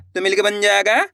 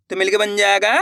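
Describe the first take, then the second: No difference in how they are said.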